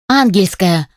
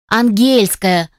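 First: The stress is on the first syllable. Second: The stress is on the second syllable. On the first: The speaker calls it wrong. "делая ударение на первой букве «А»" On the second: The speaker calls it right. "делая акцент на втором слоге"

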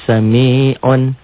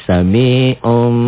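No difference in how they are said.

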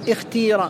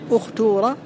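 First: The long vowel is a plain i sound. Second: The long vowel is a plain u sound. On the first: "بكسر الأول والثالث" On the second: "الضم"

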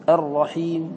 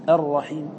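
Both takes have the same delivery.

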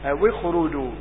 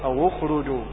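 First: The waw is joined with an i vowel. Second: The waw is joined with a u vowel. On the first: This is the reading of Hafs. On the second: This is the reading of some other reciters.

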